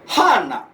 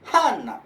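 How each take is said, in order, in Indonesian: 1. Diucapkan dengan pola nada Osaka. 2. Diucapkan dengan pola nada Osaka.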